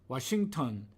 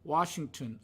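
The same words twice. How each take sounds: First: The vowel is breathy, with air pushed out. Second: The vowel is clear, without extra breath. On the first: The speaker calls it wrong. "모음을 내쉬면서 발음을 했습니다" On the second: The speaker calls it right. "발음돼야 될 것인데"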